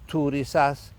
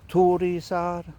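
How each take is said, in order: First: The word ends with a clear s sound. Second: The word ends with an r-like sound. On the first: The runes are treated as continental Germanic. The speaker calls it wrong. "totally wrong, never do that" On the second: The runes are treated as Nordic. The speaker calls it right. "I am not pronouncing it like an S at the end"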